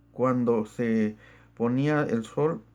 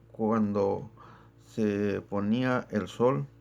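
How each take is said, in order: The two takes are said the same way.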